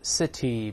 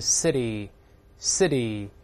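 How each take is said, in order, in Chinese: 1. t 发得清楚、完整。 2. t 很轻，有弱化。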